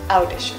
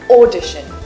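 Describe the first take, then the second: First: The first vowel sounds like 'ow'. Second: The first vowel sounds like 'or'. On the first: The speaker calls it wrong. "and not audition" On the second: The speaker calls it right. "Remember audition"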